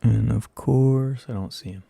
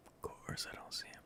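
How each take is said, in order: First: Said in the usual way. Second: Breathless whispered complaint; a hushed, exasperated whisper. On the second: Real, not acted. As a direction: whisper it in frustration.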